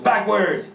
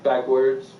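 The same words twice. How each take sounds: First: Higher-pitched, sharp mock order; imitated cop's command. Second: Puzzled echo. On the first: Comic as cop giving a sobriety test, barked mock order. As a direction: call it out as an abrupt command. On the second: Retold or imitated. Comic as drunk driver repeating cop's order, puzzled. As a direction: echo the order back in understated bewilderment.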